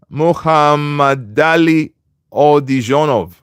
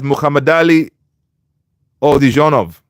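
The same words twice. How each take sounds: First: Muhammad Ali Odijonov drawn out syllable by syllable; slow careful pronunciation. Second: Muhammad Ali run together, then Odijonov after a pause; pronunciation demo. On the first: Host checking he pronounced a viewer's name right, slow and careful. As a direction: sound out Muhammad Ali Odijonov very slowly and evenly. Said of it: "Did I pronounce it right?". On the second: Host answers how he pronounced Muhammad Ali Odijonov, demonstrating. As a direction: show how you say Muhammad Ali Odijonov, in two parts. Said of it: "I pronounced it as". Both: Shown as a demonstration.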